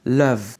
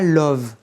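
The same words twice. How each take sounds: First: The vowel is an open, unrounded 'uh' sound. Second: The vowel is a rounded 'o' sound. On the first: The speaker calls it right. "Prononcez bien ce love avec ce E comme dans boss" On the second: The speaker calls it wrong. "C'est pas love, c'est pas un O"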